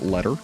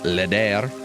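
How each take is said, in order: First: The name sounds like 'letter'. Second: The name sounds like 'leder', a posh form. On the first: "as I mispronounced your name earlier" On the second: "you could be posh and pronounce it leder"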